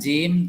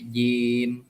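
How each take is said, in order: First: The j is made forward with heavier breath. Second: The j is made further back with lighter breath. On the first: The speaker calls it wrong. "jangan jim" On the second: The speaker calls it right. "tempatkan lidah di atas di atas langit-langit, tetapi agak dalam"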